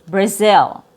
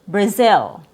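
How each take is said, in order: No difference in how they are said.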